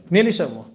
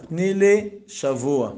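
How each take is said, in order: First: Said in the usual way. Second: "תני לי שבוע" drawn out slowly, word by word; slow insistence. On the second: Acted. Repeats the plea with deliberate emphasis.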